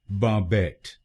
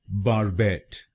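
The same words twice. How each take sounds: First: It is said in a British accent. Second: It is said in an American accent.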